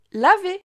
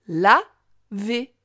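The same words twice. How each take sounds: First: Said in the usual way. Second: "Laver" as la... vé, pause between; split into syllables. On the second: Shown as a demonstration. Teacher helping the child hear la, syllable by syllable. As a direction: break Laver into two separate syllables. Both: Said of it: "Tu entends bien la syllabe la".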